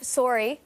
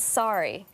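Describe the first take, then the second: First: It is said with a Canadian accent. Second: It is said with an American accent.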